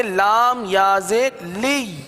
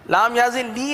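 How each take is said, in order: First: لام یا زیر لی slowly, each letter named apart; right way. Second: لام یا زیر لی rattled off quickly as a demo of the wrong reading. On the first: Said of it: "بلکہ". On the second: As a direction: run لام یا زیر لی together fast as the mistake. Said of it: "نہیں پڑھیں گے". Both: Shown as a demonstration.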